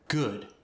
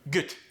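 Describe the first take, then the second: First: It is said in a standard accent. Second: It is said in a Korean accent.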